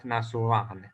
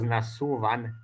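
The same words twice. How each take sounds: First: "nasuvan" stressed on a long final -van; ending accent. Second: "nasuvan" stressed on the middle syllable -su-; stem accent. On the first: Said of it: "and not nasuvan". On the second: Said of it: "originally it was nasuvan and not". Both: Shown as a demonstration.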